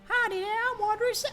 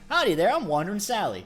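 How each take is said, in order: First: It is said in a high falsetto voice. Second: It is said in a normal voice.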